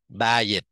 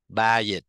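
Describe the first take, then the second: The two takes are said the same way.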